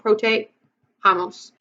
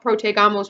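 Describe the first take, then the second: First: The middle consonant is a harsh H sound. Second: The middle consonant is a hard G sound. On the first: The speaker calls it right. "we want" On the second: The speaker calls it wrong. "We don't want that G sound"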